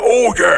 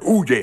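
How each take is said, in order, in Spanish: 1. La palabra se dice con mucha emoción. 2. La palabra se dice de forma plana, con poca emoción. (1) "En la caricatura era" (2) "como que la inflexión del monillo"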